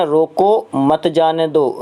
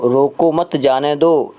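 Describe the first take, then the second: First: Slow, "रोको" set apart, then "मत जाने दो"; रोको (pause) मत जाने दो, slowly; pause after रोको. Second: Slow, "रोको मत" together, then "जाने दो"; रोको मत (pause) जाने दो, slowly; pause after मत. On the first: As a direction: break after "रोको", keep "मत जाने दो" together. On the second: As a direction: break after "मत", set "जाने दो" apart. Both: Shown as a demonstration. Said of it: "एक विराम चिन्ह से पूरा का पूरा गड़बड़".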